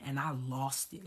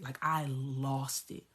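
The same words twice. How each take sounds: First: Said in the usual way. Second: "lost" drawn out slowly for emphasis; emphatic repeat. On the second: Retold or imitated. Telling how the phone call went, "lost" slow and emphatic. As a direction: stretch "lost", slowing the whole phrase.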